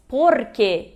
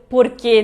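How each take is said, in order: First: Porque slow, stress on que, por-QUE; Spanish porque. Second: Porquê louder, stress on quê; wrong porquê. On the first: Teacher modelling porque for Portuguese speakers. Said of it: "Se diz porque e não por". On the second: Teacher showing the Portuguese-style porquê mistake. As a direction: hit the final quê as in Portuguese. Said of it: "e não porquê". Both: Shown as a demonstration.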